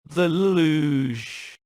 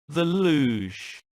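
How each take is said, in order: First: It is said with the strongest disgust. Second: It is said with clear disgust.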